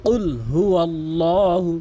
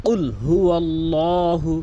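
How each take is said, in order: Both takes have the same delivery.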